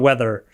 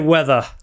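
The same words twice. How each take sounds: First: It is said with an American accent. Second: It is said with a British accent. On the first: This is the form the speaker does not use. "instead of weather" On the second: This is the form the speaker uses. "I say weather ... the English I learned from the academy I go is British"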